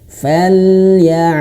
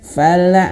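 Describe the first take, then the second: First: The L is held and released into the next sound. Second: The tongue releases the L early, with a bounce. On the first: The speaker calls it right. "Seperti itu ya" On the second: The speaker calls it wrong. "nah, itu bakal ada bakal ada pantulan"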